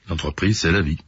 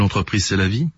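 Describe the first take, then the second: First: It is said with a resigned, fatalistic tone. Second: It is said as an upbeat slogan.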